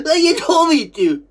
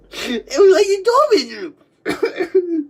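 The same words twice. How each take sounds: First: Said in the usual way. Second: Slow, laugh-crying words; words breaking through tears of laughter. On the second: Real, not acted.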